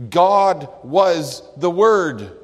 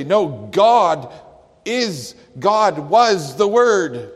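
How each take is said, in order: First: God was the Word, "God" put first and punched; loud, slow and weighty; stress on God. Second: "God" leaned on hard, loud and slowed; loud, higher emphatic reading; emphasize it the Greek way. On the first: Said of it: "the word God is in the emphatic position". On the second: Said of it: "but they would say". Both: Shown as a demonstration.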